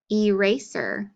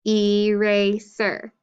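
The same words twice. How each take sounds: First: Said in the usual way. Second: "Eraser" slowly in three separate beats; syllable by syllable. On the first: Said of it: "clap for each syllable that you hear". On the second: Shown as a demonstration. Teacher counting syllables for pupils, "Eraser" syllable by syllable. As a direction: sound out "Eraser" slowly as e, ra, ser. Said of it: "Three syllables".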